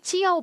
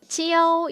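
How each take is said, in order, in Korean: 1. 이 음절은 날카롭게 떨어지는 성조입니다. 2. 이 음절은 높은 평성 성조입니다. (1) "사성 해줍니다" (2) "동사로 쓸 때 찌아오 일성으로 발음을 하거든요"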